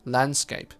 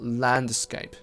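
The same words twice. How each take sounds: First: The d sound is unreleased or dropped. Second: The d sound is fully released. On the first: The speaker calls it right. "unreleased stop" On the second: The speaker calls it wrong. "It's not landscape. Nobody says that"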